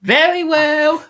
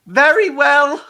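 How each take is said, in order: First: Much higher, louder and slow; mock-grand impression. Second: Much higher, louder mock-grand voice; hammed-up high voice. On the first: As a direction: stretch it out grandly. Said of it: "that's actually quite good". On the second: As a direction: deliver it like a pompous hero. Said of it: "imitating a Doctor line".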